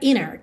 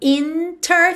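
First: The T is dropped and the N links on. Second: The T after the N is clearly pronounced.

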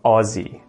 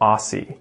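First: It is said with an Australian pronunciation. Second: It is said with an American pronunciation. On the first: The speaker calls it right. "and not Aussie" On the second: The speaker calls it wrong. "Americans always say this incorrectly. They always say Aussie"

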